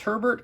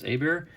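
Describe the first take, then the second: First: The name is said with an English pronunciation. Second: The name is said with a French pronunciation. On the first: "I'm not sure if it's Herbert or Hebert" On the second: "I think the French pronunciation is Hebert"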